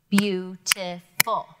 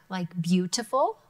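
First: "beautiful." split into BEAU-ti-ful, slow beats; slow, each syllable separate: beau-ti-ful; clapped out slowly. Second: Said in the usual way. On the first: Shown as a demonstration. Teacher claps out the word for students. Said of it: "clap out a word". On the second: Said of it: "clap out a word, like beautiful".

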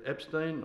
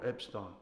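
First: Epstein, second syllable with a long front vowel, not "-stine"; Epstein as "EP-steen". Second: Epstein, second syllable said "stine". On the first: Sergeant needles the soldier over his name, Epstein ending "-steen". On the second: Sergeant needles the soldier over his name, Epstein ending "-stine". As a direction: say Epstein with the ending rhyming with "wine". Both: Acted. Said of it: "is it Epstein or Epstein".

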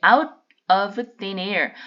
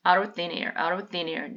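First: Out of thin air read slowly, each word separate. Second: Out of thin air run together quickly as aro-thin-air; fast, linked together. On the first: Teacher to students, slow word-by-word reading. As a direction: spell out out of thin air one word at a time. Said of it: "이거를 빨리 한꺼번에 읽으시면". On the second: Teacher showing students the quick linked reading. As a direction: blur out of thin air into one quick phrase. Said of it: "빨리 한꺼번에 읽으시면". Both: Shown as a demonstration.

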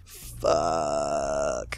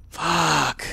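First: Low, soft, long drawn-out groaned swear; defeated curse. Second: Higher-pitched, drawn-out swear; frustrated curse. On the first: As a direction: sink into a despairing curse. Swearing over the loss, second take. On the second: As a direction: let out a pained curse. Swearing over the loss, first take. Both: Real, not acted.

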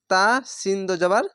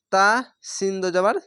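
No difference in how they are said.

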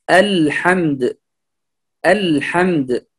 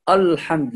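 First: الحمد slowly, with a thin, light "al"; light hamza and lam. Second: الحمد with thickened hamza and lam; heavy mispronunciation. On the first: Teacher models the correct word for learners, slow light الحمد. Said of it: "مرققًا". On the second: Teacher warns learners what not to say, heavy الحمد. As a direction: darken the "al" of الحمد into a heavy sound. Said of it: "فلا نقول الحمد". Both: Shown as a demonstration.

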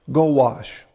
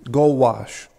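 The two takes are said the same way.

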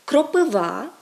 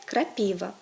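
First: Кропива drawn out loud on final -ВА; Ukrainian end stress. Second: Крапіва stressed on -ПІ-; Russian middle stress. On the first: Teacher gives Ukrainian form, кропива stressed on the ending. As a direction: stretch the last syllable of кропива. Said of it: "українське". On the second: Teacher gives Russian form, крапіва stressed in the middle. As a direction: hit the middle syllable of крапіва. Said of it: "російське". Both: Shown as a demonstration.

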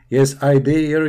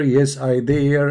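First: Said in the usual way. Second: Drawn out, slow reply; slow mock answer. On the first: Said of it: "repeated answer". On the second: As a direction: stretch each word. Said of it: "slowed repeat".

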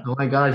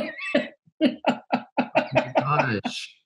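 First: Said in the usual way. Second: A long, drawn-out, much higher "Oh my gosh"; stunned gasp. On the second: Real, not acted. Host stunned by the mother's story, slow high gasp. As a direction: let the words stretch out in disbelief.

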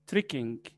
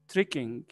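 Both takes have the same delivery.

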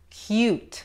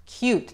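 First: "Cute" said /kut/, no y glide before the u; wrong pronunciation. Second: "Cute" said /kjut/ with a y glide, "kyoot"; right pronunciation. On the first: Teacher showing the wrong way to say cute, plain "koot". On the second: Teacher showing the right way to say cute, "kyoot". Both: Shown as a demonstration. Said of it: "Fíjate en la pronunciación".

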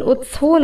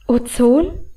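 First: Said in the usual way. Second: A puzzled, rising question on Ozon; surprised echo. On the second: Acted. She echoes her brother's word in surprise, puzzled rising Ozon. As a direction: repeat Ozon back, caught off guard. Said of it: "Das hatte ich nicht erwartet".

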